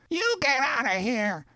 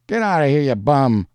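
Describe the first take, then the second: First: Very high, thin-volume mock yell; yelling back. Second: Raised, higher shout. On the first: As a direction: shout back in a high put-on voice, held down in volume. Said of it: "the voice responded through an open window". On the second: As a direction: throw them out with a loud yell. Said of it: "a voice shouted". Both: A narrator's reading.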